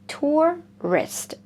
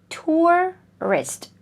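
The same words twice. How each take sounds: The two takes are said the same way.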